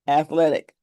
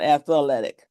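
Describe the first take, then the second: First: The word is said with three syllables. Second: The word is said with an extra fourth syllable. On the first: The speaker calls it right. "Three syllables" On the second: The speaker calls it wrong. "not athletic"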